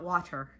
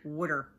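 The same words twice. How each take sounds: First: It has a clear t, in a standard accent. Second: It sounds like wodder, in a Jersey accent. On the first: "Not water" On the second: "D-D-E-R. Water. That's how we pronounce it"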